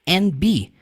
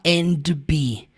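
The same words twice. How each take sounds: First: The D is dropped, 'and' sounds like just N. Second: The D at the end of 'and' is pronounced. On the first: The speaker calls it right. "Geralmente você pronuncia essa palavra só N" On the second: The speaker calls it wrong. "Ele não fala and be"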